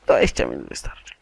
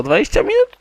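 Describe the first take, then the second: First: "Dwadzieścia minut wystarczy" quick, dropping low; decided answer. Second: "dwadzieścia minut" high, loud and rising; questioning. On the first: Gamer settling on the time, "Dwadzieścia minut wystarczy" as a quick falling statement. Answers his own question. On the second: Gamer asking himself about time, "dwadzieścia minut" as a high rising question. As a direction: ask "dwadzieścia minut" quickly as a raised question. Asks, then answers himself. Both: Real, not acted.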